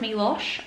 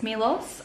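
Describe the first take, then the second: First: The word ends with an sh sound. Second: The word ends with an s sound. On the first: "Brayden says Milosh" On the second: "I always feel like I'm saying it wrong"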